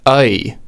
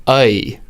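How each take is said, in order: No difference in how they are said.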